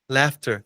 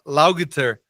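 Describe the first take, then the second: First: The gh is pronounced as an F sound. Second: The gh is read out as it is spelled. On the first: The speaker calls it right. "O G H vira F" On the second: The speaker calls it wrong. "eu falava laughter, laughter, porque não tem nada a ver"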